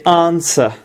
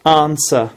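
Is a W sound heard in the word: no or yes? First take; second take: no; no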